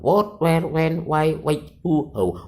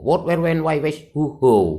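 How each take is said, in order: First: The list is read somewhat quickly. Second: The list is read very quickly. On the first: "Dibaca tiga kali agak cepat" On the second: "dibaca cepat begitu"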